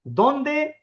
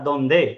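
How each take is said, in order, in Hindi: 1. ज़ोर पहले अक्षर पर है। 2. ज़ोर दूसरे अक्षर पर है। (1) "ओ पे आएगा" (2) "ई पे आएगा"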